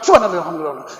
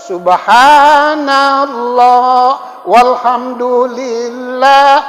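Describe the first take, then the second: First: It is said very fast. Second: It is said very slowly.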